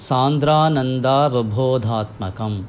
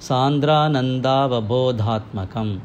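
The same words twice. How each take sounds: The two takes are said the same way.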